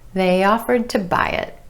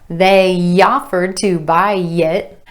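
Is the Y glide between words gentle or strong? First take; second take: gentle; strong. First: The Y glides between words are gentle and subtle. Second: The Y glides between words are strong and exaggerated. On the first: The speaker calls it right. "It's just a subtle glide" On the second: The speaker calls it wrong. "It's not ... unless maybe you're striving for that southern accent"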